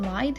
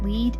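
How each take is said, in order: First: The vowel is an 'eye' sound. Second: The vowel is a long 'ee' sound. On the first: The speaker calls it wrong. "it sounds a little bit better than lied" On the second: The speaker calls it right. "like in German, it would be pronounced Lied"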